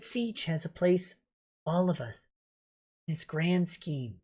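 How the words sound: It is read in a put-on character voice. "the Vic voice is what you meant"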